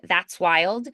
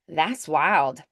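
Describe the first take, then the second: First: The T in 'that's' is clearly pronounced. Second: The T in 'that's' is left out. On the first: "I do it with that ts, ts, T S sound" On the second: "some people might do more like a"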